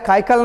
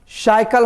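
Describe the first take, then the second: First: The word begins with a K sound. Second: The word begins with an S-like sound. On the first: The speaker calls it wrong. "काइकल नहीं" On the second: The speaker calls it right. "श की तरह"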